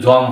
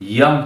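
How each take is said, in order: First: The word begins with a 'j' sound. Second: The word begins with a 'y' sound. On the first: The speaker calls it wrong. "তা না" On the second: The speaker calls it right. "সঠিক উচ্চারণ"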